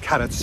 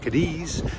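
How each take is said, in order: First: The name is said with the local Spanish pronunciation. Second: The name is said with an English-style pronunciation. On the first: The speaker calls it right. "but it's Cadiz by the local" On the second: The speaker calls it wrong. "I've been mispronouncing this wrong all the time. I was saying"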